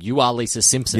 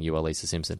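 First: It is said loudly and forcefully. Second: It is said softly and gently. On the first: It shakes the listener into awareness. The speaker calls it wrong. "Exclamation point is like grabbing her by the shoulder, shaking her back and forth" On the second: It offers calm reassurance. The speaker calls it right. "putting a soft hand on her shoulder and saying"

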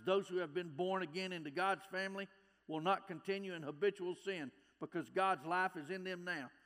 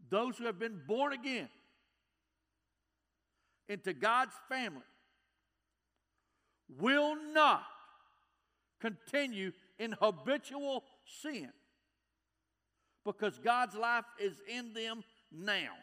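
First: It is read at a normal pace. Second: It is read very slowly.

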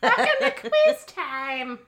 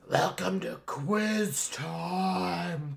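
First: It is said in a normal voice. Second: It is said in a put-on zombie voice.

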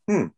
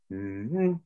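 First: The pitch falls from a high note to a low one. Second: The pitch rises from a low note to a high one. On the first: "when you invert it" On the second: "analyzed the two notes from the lowest to the highest"

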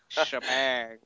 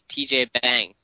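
First: The name starts with a single 'sh' sound. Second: The name starts with the spelled letters T and J. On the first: The speaker calls it right. "pronounced Shebang" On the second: The speaker calls it wrong. "TJ Bang or something. That was probably what it is"

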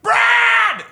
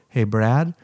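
First: It is said loudly and intensely. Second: It is said quietly and gently.

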